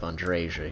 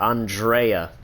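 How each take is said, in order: First: The j is said as in jam. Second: The j is said like a y. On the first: The speaker calls it wrong. "initial pronunciation" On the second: The speaker calls it right. "J's are Y's"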